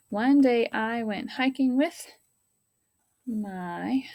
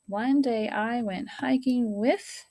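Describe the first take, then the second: First: Whispered reread. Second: Slow reread. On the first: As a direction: whisper the sentence, slowly. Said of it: "rereading the sentence in whisper". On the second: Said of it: "rereading the sentence aloud". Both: Shown as a demonstration.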